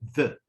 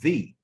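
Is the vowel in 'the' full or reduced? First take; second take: reduced; full. First: The word is said with a reduced vowel. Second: The word is said with a full vowel. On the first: "this is the weak form of that" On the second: "The strong form is the"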